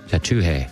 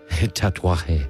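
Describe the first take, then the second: First: It is said with three syllables, no 'a'. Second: It is said with four syllables, 'tu-a'. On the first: "I'm going to try to pronounce this name right" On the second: "That's it. You did it"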